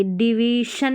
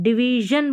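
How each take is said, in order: First: डिवीशन with unvoiced shun at the end; hushing sh in डिवीशन; wrong sh in डिवीशन. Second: डिवीजन ending in voiced zhun. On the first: Teacher showing what not to say, डिवीशन with sh. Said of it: "डिवीजन नहीं बोलेंगे". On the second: Teacher modelling the right reading, डिवीजन with zh. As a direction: buzz the zh in डिवीजन. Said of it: "डिवीजन बोलेंगे". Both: Shown as a demonstration.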